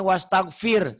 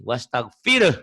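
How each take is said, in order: First: "wastaghfir" with gh as a hard k, wastakfir; wrong pronunciation. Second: "Wastaghfir." with a clear gh and a breathy h at the end, louder; correct pronunciation. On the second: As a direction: say "Wastaghfir." right, the final h heard. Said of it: "Kalau wastaghfir, hunya hilang". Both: Shown as a demonstration.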